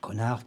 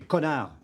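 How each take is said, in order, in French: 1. Le mot est dit doucement, à voix basse. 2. Le mot est dit fort et explosif. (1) "qui reste pour moi" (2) "pas aussi explosif que celui que je viens de faire"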